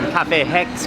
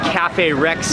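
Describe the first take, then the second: First: The name begins with an H sound. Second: The name begins with an R sound.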